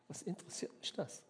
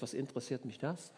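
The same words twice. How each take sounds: First: A breathy whisper with a higher, airy edge; hushed, almost secretive echo; whispered repeat. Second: Said in the usual way. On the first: Acted. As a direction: drop to a whisper on the repeat, as if to yourself. Jesus repeats the line, whispered.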